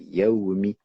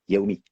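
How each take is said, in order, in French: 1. Le son w est clairement gardé. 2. Le son w est avalé et perdu. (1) "C'est Yaoumi" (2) "c'est pas Yaoumi ... Jusqu'à ce qu'on avale une lettre"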